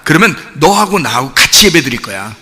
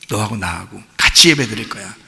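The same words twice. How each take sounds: First: Said in the usual way. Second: Tender repeat. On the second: Acted. Jesus's line repeated softly.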